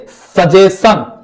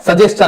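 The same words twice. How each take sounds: First: सजेशन drawn out very slowly with a plain s sound; the wrong way students read सजेशन; old wrong reading. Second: सजेशन with a ch ending: sa-jes-chan; quick correct सजेशन with ch; right reading. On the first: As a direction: stretch the mistaken सजेशन slowly. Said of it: "हम लोग इसको क्या पढ़ रहे थे". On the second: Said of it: "लेकिन ये क्या है". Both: Shown as a demonstration.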